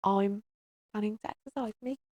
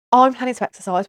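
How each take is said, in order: First: Much softer, sheepish; meek mumble. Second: Loud, bold declaration; mock proud announcement. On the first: Pretend. Mother repeating her plan to viewers, sheepish quiet mumble. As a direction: say it timidly under your breath. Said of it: "Who said that?". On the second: Mother declaring to viewers, loud proud announcement. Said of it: "What? Hello? Who said that?".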